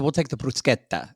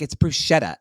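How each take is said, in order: First: Bruschetta said bru-SKET-ta; bruschetta with a hard k. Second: Bruschetta said bru-SHET-ta, the wrong way. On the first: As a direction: say bruschetta with a K sound. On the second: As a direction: say bruschetta with an sh sound. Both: Retold or imitated. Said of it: "my friend made fun of me".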